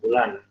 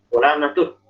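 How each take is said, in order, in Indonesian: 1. Kata ini diakhiri dengan bunyi h. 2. Kata ini diakhiri dengan bunyi t. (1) "Wakafnya gimana?" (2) "nggak boleh"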